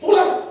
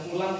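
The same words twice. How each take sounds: First: It is said loud, high and forceful. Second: It is said plainly, in a normal voice.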